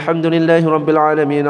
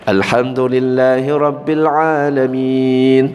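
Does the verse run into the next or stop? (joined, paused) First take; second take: joined; paused. First: It runs straight on into the next verse. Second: It stops with a pause after the verse. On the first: The recitation is allowed but less ideal. The speaker calls it wrong. "disambung seperti itu" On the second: Room is left for a reply after each verse. The speaker calls it right. "dipotong-potong setiap ayat"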